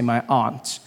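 It is said in the speaker's non-American accent.

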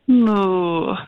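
It is said in a disappointed way.

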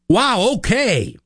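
It sounds supportive.

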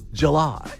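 It is said the New York way.

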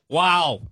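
It sounds sarcastic.

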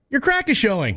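It is said in a supportive tone.

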